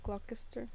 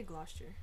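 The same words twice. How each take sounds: First: "Gloucester" in three syllables, glock-ess-ter; "Gloucester" with the hard c sounded; "Gloucester" said as GLOCK-uh-ster, with a k. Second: "Gloucester" with the c silent; "Gloucester" as GLAH-ster; "Gloucester" said as GLOSS-ter, two syllables. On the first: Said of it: "Is that how you say it?". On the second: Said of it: "I say Gloucester". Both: Shown as a demonstration.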